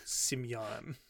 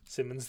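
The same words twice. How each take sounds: First: "Simeon" said as SIM-ee-on, three syllables; Simeon pronunciation. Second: Said in the usual way. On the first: Shown as a demonstration. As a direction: say "Simeon" with a clear -ee-on ending. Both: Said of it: "they always pronounce it more like Simeon".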